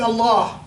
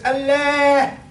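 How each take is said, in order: First: Allah pronounced firm and falling; a falling "Allah" as he said it to the crowd; saying Allah. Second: "Allah" pitched high and louder, eager; imitating an anxious listener's high "Allah"; anxious man's Allah. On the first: Retold or imitated. Scholar answering the crowd with a falling Allah. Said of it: "I said". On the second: Anxious man in the crowd calling out a high Allah. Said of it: "was very anxious to talk to me".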